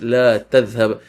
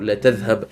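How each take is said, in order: First: The vowel of la is held long. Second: The vowel of la is kept short. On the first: It tells someone not to go. "The elongation of the la means do not go" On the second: It says someone will surely go. "But when we shorten it, la tadhhab means you will surely go"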